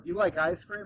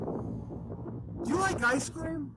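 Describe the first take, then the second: First: It is said flatly and quickly, without enthusiasm. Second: It is said brightly, with lively enthusiasm. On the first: The speaker calls it wrong. "not with my deadpan, you know, forty-one year old voice trying to rush through the bit" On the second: The speaker calls it right. "But with enthusiasm"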